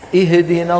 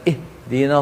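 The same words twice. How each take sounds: First: The h sound shakes with a jolt. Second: The h sound is faint and barely heard. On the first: "هذه قلقلة" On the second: "يباعد الوترين جدا عن بعضهما"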